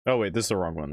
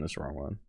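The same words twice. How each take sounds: First: Said in the usual way. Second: Much softer repeat, muttered; muttered to self. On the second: Real, not acted. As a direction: mutter it under your breath.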